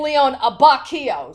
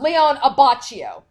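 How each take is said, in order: First: The middle consonant is said as 'k'. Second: The middle consonant is said as 'ch'. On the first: The speaker calls it right. "It is actually ... So the H is silent" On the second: The speaker calls it wrong. "we've always pronounced it like, you know, cha"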